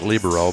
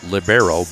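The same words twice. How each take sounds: First: It is pronounced the Italian way. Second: It is pronounced the speaker's usual English way. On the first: "I think Italian is libero" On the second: "I usually pronounce that libero"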